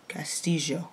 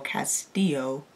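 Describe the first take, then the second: First: The double L is not said as a Y sound. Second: The double L is said as a Y sound. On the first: This is how it is said in Spain or parts of South America. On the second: This is how it is said in Mexico.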